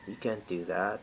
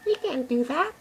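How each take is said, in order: First: It is said in a normal voice. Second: It is said in a Mickey Mouse voice.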